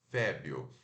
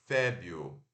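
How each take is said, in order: The two takes are said the same way.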